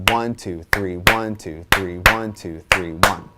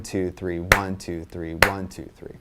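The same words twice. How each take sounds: First: ONE, two, THREE, with the first and third of each three hit harder; accent first and third. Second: ONE, two, three, with the first of each group of three punched; accent first of three. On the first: Drum teacher demonstrating the new accent, stressing first and third. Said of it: "focus on the first and the third one". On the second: Drum teacher counting for students, accent on each first beat. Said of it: "really accenting the first one". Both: Shown as a demonstration.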